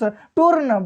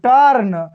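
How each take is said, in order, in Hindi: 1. स्वर 'oo' ध्वनि है। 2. स्वर एक छोटी 'uh' ध्वनि है। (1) "ऐसे मत पढ़ दीजिएगा" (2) "यू के बाद आर आया है तो हम यू का उच्चारण ... अ से करेंगे"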